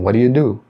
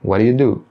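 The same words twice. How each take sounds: First: The words are run together in fast speech. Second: The words are run together in fast speech.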